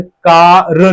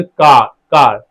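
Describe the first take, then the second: First: कार with the r sounded; कार said with a clear r; wrong take with R. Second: कार with the r dropped, slow; कार said long with no r; silent r demo. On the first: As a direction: roll the r in कार. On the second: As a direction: leave the r out of कार. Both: Shown as a demonstration. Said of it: "जैसे कार नहीं बोलते".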